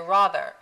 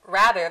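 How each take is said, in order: First: It is said with an English-style vowel. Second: It is said with an American vowel. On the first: "they learn the English vowels" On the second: "rather than the American vowels"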